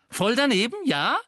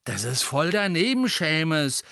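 First: High, loud echo flung back; indignant cry. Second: Warning disapproval. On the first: Seamus echoing Ron's reproof, shouting indignantly. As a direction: throw the phrase back as a challenge. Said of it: "rief Seamus". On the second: Ron reproving his roommate Seamus, warning disapproval. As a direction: warn him with restrained annoyance. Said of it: "dessen Ohren inzwischen rot glühten, immer ein Zeichen von Gefahr". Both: A narrator's reading.

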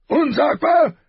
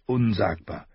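First: Furious roar, much higher and louder. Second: Said in the usual way. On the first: A narrator's reading. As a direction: roar the word back in outrage. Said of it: "brüllte der König". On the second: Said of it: "hielt Ned dagegen".

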